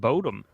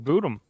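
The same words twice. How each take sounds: First: The first syllable does not sound like 'boo'. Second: The first syllable sounds like 'boo'. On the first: The speaker calls it wrong. "I always assumed it was called Children of Bodom" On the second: The speaker calls it right. "but apparently it's Children of Bodom"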